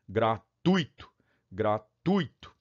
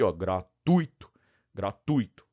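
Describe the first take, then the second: First: Gratuito slow, split as gra-tu-i-to with stress on i; wrong hiatus pronunciation. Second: Gratuito with stress on u, ui as diphthong; correct pronunciation. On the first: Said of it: "Se for gratuito". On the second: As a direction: say gratuito as gra-TUI-to. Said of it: "Logo eu tenho isso aqui". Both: Shown as a demonstration.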